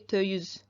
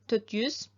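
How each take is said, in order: First: The t sound in dört is left out. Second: The t sound in dört is pronounced.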